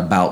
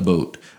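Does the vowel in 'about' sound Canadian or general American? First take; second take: general American; Canadian. First: The vowel in about sounds general American. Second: The vowel in about sounds Canadian.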